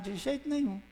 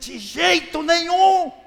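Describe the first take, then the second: First: It is said quietly and calmly. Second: It is shouted loudly and forcefully. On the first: The idea is dismissed casually. The speaker calls it wrong. "de uma forma tão tranquila" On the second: The idea is utterly rejected with outrage. The speaker calls it right. "Seria um, um berro, um grito"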